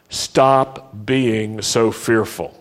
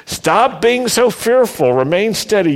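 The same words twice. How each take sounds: First: Slow and measured. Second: High, amused and lively; laughing paraphrase. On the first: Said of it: "Say that with me". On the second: Preacher to congregation, laughing and much higher. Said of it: "paraphrasing Moses with a laugh". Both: Shown as a demonstration.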